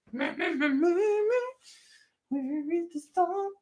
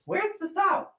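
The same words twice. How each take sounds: First: Soft, high drawn-out falsetto singing; sung, singsong searching. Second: Falsetto question, spoken through; high searching call. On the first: Host hunting for the salt, singing high and soft. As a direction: sing the question slowly, in pieces. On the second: Host hunting for the salt, high spoken falsetto. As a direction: ask in a high put-on voice. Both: Acted.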